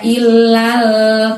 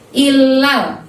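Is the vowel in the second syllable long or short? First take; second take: long; short. First: The second vowel is drawn out long. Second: The second vowel is short and quick. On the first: The speaker calls it wrong. "nggak boleh dibaca ilal" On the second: The speaker calls it right. "lalnya itu pendek, temponya cepat"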